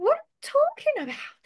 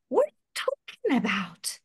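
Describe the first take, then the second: First: High, dramatic movie-line delivery; imitating a movie actor. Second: Said in the usual way. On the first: Shown as a demonstration. Teacher shows students how to shadow a series line, hammed-up. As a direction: ham it up like a film scene. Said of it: "Aí tu vai imitar com esse jeito, assim mesmo". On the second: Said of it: "vou pensar aqui um, uma fala qualquer".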